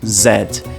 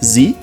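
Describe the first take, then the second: First: The letter is said in a British accent. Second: The letter is said in an American accent. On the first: "em inglês britânico eu digo Z" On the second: "em inglês americano eu digo Z"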